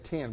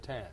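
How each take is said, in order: First: The vowel sounds like the i in tin. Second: The vowel sounds like the e in pen. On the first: This is how the speaker says it. "I would say ten" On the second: This is how the other person says it. "but you say ten"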